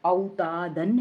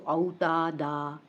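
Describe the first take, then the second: First: औतादन slowly, final -an with n sounded; full tanween ending. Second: औतादा slowly, n dropped and final aa held; waqf with madd. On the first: (औतादन, तनवीन के साथ धीरे-धीरे) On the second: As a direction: stretch औतादा out on a long aa. (औतादा, आख़िरी अलिफ खींचकर) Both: Shown as a demonstration. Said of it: "दो ज़बर की तनवीन का वक्फ".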